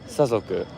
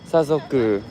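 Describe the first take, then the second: First: Pitch is high on the first mora, then low. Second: Pitch is high on two morae, then low. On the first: "something something like that" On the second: "And maybe high high low"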